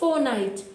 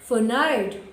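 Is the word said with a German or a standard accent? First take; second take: standard; German. First: It is said in a standard English accent. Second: It is said in a German accent. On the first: "We pronounce it as fortnight" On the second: "pronouncing it in a German slang"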